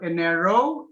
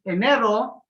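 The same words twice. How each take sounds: First: "enero" with a gliding, unaccented last o, rising; enero without final accent. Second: "enero" with an accented, cut-off final ro; "enero" ending short and firm; strong last syllable. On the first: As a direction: say "enero" wrongly, stretching the ending upward. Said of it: "Instead of enero". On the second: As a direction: stress the last o of "enero" and break it off. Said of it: "last syllable". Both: Shown as a demonstration.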